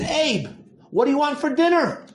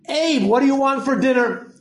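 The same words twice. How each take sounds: First: It is said at a softer volume. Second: It is said at a louder volume.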